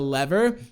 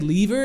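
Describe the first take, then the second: First: The word is said with the speaker's usual pronunciation. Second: The word is said with a British pronunciation. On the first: "instead of" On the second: "a lot of my friends are English, so sometimes ... I'll say lever"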